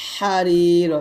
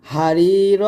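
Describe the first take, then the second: First: হারির with squeezed raspy H; pressed ha. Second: হারির with light breathed H; ordinary ha. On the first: Teacher contrasting two letters, হারির with pressed H. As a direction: press the first sound of হারির from the throat. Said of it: "চাপ দিয়ে চিকন করে". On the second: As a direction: start হারির without throat pressure. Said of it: "সাধারণভাবে বলতে হবে". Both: Shown as a demonstration.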